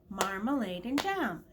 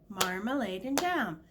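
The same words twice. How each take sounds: No difference in how they are said.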